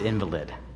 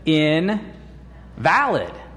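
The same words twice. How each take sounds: First: The stress is on the first syllable. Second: The stress is on the second syllable. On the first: "they didn't pronounce it invalid" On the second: Something not valid or worthless. "They pronounced it invalid"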